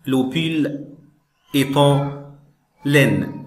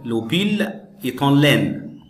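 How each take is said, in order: First: Le pull, est en, laine, each chunk set apart by clear pauses; dictated word by word. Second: Said in the usual way. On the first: Shown as a demonstration. Teacher dictating to the class, chunk by chunk with pauses. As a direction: read it out in pieces for students to write down. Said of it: "teacher dictates a fill-in sentence". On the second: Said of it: "teacher reads the whole sentence".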